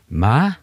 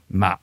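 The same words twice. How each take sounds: First: The word is said on a rising tone. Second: The word is said on a heavy dropping tone. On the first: The word means mother. "så betyr det mor" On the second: The word means rice seedling. "som betyr en liten risplante"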